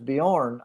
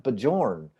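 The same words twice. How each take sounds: First: The name is said in its native way. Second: The name is sounded out letter by letter. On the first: This is the person's real name. "I know his name is Bjorn" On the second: The name is read from its spelling. "I want to call him Bjorn. I said, because I'm hooked on phonics"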